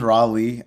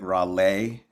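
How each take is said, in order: First: The stress is on the first syllable. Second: The stress is on the last syllable. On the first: This is the personal name. "It is Raleigh" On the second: This is the artist brand name. "we kind of put an accent on the end"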